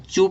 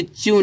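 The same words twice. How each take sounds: First: "चू" as plain choo, no y-glide; "चू" pronounced choo; correct reading. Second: "च्यू" as chyoo, with a y-glide; "च्यू" pronounced chyoo; wrong reading. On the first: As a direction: say "चू" with ch straight into long oo. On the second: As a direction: slip a y between ch and oo in "च्यू". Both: Shown as a demonstration. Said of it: "इसको च्यू नहीं पढ़ेंगे".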